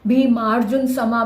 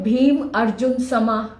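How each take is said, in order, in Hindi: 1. भीम और अर्जुन एक शब्द में मिल जाते हैं। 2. भीम और अर्जुन अलग-अलग शब्दों की तरह बोले जाते हैं। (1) "भीमार्जुन समा बन गया इकट्ठा" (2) "अगर हम तोड़ के बोले"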